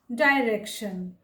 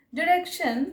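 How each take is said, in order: First: "डायरेक्शन" as dye-rek-shun; alternative pronunciation. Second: "डायरेक्शन" as di-rek-shun; short i opening "डायरेक्शन"; alternative pronunciation. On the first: Teacher showing the other accepted "डायरेक्शन", said dye-rek-shun. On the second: Teacher showing one accepted "डायरेक्शन", said di-rek-shun. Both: Shown as a demonstration. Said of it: "दोनों ही सही है".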